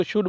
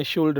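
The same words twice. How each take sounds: First: "शुड" with the vowel straight into D; silent L. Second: "शुल्ड" with an audible L before D; wrong, L sounded. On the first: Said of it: "बोलते हैं". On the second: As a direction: say "शुल्ड", pronouncing the L. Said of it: "नहीं बोलते". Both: Shown as a demonstration.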